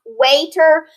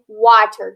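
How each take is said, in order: First: "waiter" slowly, long A, as WAY-ter; long A drawn out in "waiter"; pronounced by rule. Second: "water" as WAH-ter, dropping in pitch; exception pronunciation. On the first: Teacher showing what decoding would give, long-A "waiter". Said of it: "If we were following our decoding skills". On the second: Teacher giving the exception to pupils, open-vowel "water". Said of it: "we have to use that exception". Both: Shown as a demonstration.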